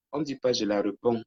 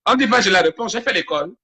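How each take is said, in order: First: Said in the usual way. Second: High, loud retort; raised-voice comeback to a critic; indignant protest. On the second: Real, not acted. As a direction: push back loudly at being corrected. Protests at being corrected on grammar.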